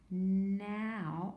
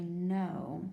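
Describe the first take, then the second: First: "now" with ow as in cow; ow sound by mistake. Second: "no" with a long O as in snow; silent K, long O. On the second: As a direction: say "no" rhyming with snow. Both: Shown as a demonstration. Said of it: "this is actually no".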